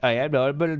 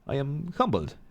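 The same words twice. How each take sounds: First: It is said with an Indian accent. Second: It is said without an Indian accent.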